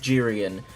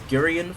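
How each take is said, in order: First: The name begins with a j sound. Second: The name begins with a hard g sound. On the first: The speaker calls it right. "apparently it's pronounced Jirian" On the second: The speaker calls it wrong. "I've been pronouncing it as Gurian for decades"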